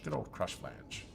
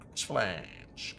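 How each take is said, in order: First: Low, slow, softer mock-fond put-on voice. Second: Said in the usual way. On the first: Streamer greeting a junk item drop with mock affection.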